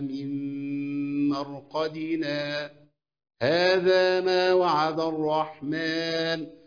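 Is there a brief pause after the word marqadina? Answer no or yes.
yes. A brief silent stop follows the word marqadina. "أعمل السكت إزاي"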